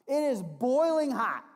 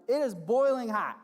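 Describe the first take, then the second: First: "boiling" drawn out high and loud; "It is boiling hot" with a slow, loud, high "boiling"; stress on boiling. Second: "boiling" punched loud, a bit higher; "It is boiling hot" with a loud stressed "boiling". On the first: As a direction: lean hard on "boiling", slow. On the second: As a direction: hit "boiling" again, loud. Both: Shown as a demonstration.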